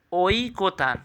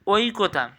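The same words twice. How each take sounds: First: "ঐকতান" stretched as ওই-কো-তান; careful pronunciation. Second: Said in the usual way. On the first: Shown as a demonstration. Teacher asking correct pronunciation, "ঐকতান" drawn out. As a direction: draw out each syllable of "ঐকতান". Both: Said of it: "উচ্চারণ কী হবে".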